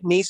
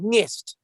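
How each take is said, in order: First: The word ends in a plain s sound. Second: The word ends in an st sound. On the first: "Is it Nice or Nist?" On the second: "Is it Nice or Nist?"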